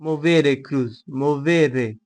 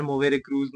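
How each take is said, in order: First: Put-on slow, drawn-out Italian accent on "Movere cruz". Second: Said in the usual way. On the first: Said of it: "मैं Italian accent में क्यों बोला यार?". (Italian लहजे में "Movere cruz") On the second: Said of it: "Movere cruz normally बोलूंगा मैं।".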